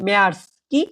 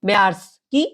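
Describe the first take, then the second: The two takes are said the same way.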